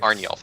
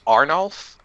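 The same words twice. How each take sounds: First: "Arnulf" with a y-glide, Arn-yulf; corrected pronunciation. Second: "Arnulf" said tentatively with rising tune; unsure pronunciation. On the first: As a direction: say "Arnulf" as Arn-yolf, settled and falling. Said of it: "pronouncing it correctly. Thank you". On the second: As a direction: try out "Arnulf" as a question. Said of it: "wasn't sure if I was pronouncing it correctly". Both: Real, not acted.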